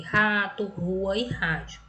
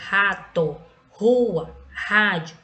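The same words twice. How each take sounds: First: Said in the usual way. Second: "rato, rua, rádio" loud and separate, each R a strong H-like sound; teacher's emphatic demo of strong R in "rato, rua, rádio"; strong initial R. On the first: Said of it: "são os exemplos que eu coloquei". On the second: Shown as a demonstration. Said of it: "ele vai ter um som forte".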